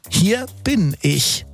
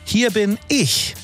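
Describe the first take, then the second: First: It sounds relieved, like arriving just in time. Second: It sounds defensive, like claiming one's own place.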